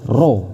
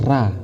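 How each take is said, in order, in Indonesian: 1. Vokalnya terdengar seperti 'o' membulat. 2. Vokalnya terdengar seperti 'a' terbuka. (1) "tapi dibaca apa? Ro" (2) "Bukan dibaca ra"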